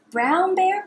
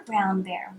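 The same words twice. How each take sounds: First: Higher calling tone; sing-song call. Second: Dropped, softer echo; lower repeat. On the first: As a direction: call it up high. Repeat call. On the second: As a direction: echo it down low. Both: Shown as a demonstration.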